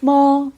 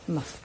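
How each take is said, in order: First: The pitch stays high and level. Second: The syllable is short, light and toneless. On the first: "Le chinois a quatre tons" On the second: "plus un ton atone"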